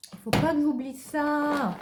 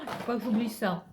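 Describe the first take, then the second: First: Higher and louder, stressing pas; emphatic reminder. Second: Said in the usual way. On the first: Shown as a demonstration. Reminding herself not to forget, louder and higher. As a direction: hammer home pas.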